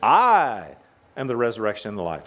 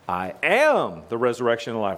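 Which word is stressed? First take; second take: I; am. First: The stress is on "I". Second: The stress is on "am".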